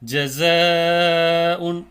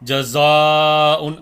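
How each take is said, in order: First: The long vowel is light and thin. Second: The long vowel is heavy and full. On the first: The speaker calls it right. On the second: The speaker calls it wrong.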